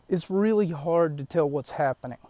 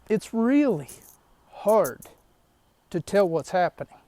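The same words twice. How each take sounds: First: The word hard has no special stress. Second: The word hard is strongly stressed.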